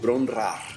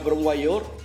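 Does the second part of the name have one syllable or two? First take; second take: one; two. First: The second part is said in one syllable. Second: The second part is said in two syllables. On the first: The speaker calls it right. "se pronuncia algo así como" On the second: The speaker calls it wrong. "lo pronunciaba mal"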